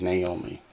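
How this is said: The name is said with English pronunciation. "Or in English, we say Naomi"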